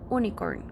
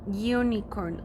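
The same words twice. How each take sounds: First: It begins with a plain vowel sound, no Y. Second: It begins with a Y sound before the vowel. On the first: The speaker calls it wrong. "It's not unicorn" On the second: The speaker calls it right. "Like we're using a Y"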